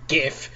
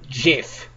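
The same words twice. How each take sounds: First: It begins with a hard g sound. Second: It begins with a soft j sound.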